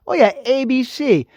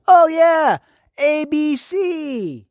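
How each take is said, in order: First: Mock-casual answer to his own question; sarcastic aside. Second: High and loud mock surprise, drawn out; hammed-up sarcasm. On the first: Vlogger answering his own question to viewers, sarcastic. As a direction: drop the answer like it's obvious. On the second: Vlogger mocking the network to his viewers, exaggerated sarcastic drawl. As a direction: stretch the letters out slowly, dripping sarcasm.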